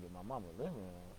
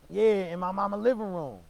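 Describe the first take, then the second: First: Lower, softer disbelieving question; stunned echo. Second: High, loud emphatic confirmation; uncle's loud answer. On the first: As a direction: repeat it back under your breath in shock. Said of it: "I'm like". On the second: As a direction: hammer it home like an outraged uncle. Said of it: "He was in the house". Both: Retold or imitated.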